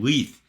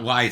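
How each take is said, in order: First: The vowel is an "ee" sound. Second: The vowel is an "eye" sound. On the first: The speaker calls it right. "because it rhymes with chief" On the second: The speaker calls it wrong. "not Lights"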